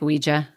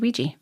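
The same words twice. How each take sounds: First: The word is said in its full, careful form. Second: The word is said quickly in a reduced form. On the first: "I usually say like Ouija" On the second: "if I'm talking quickly, I might say Ouija"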